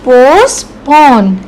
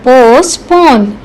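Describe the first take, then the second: First: पोस्टपोन drawn out slowly, syllable by syllable; pronunciation demo. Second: पोस्टपोन said slowly and carefully, every sound clear; teacher showing how to say पोस्टपोन, slow and careful; pronunciation demo. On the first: Teacher repeats पोस्टपोन for class, slow careful model. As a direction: say पोस्टपोन slowly so learners can copy it. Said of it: "तो इसको कैसे बोलते हैं?". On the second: Teacher models पोस्टपोन for students, slow careful pronunciation. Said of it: "इसको कैसे बोलते हैं?". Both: Shown as a demonstration.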